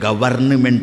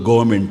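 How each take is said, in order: First: Every letter is sounded in the full form. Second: The word is shortened, dropping the middle syllable. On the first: This is how it would sound if read as written. "ಅಲ್ಲಿದ್ದಂತೆ ಓದಿಬಿಟ್ರೆ" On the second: This is how it is actually read. "ಓದೋದು ಗೌರ್ಮೆಂಟ್ ಅಂತ"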